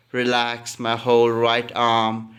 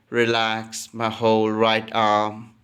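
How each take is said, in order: Both takes have the same delivery.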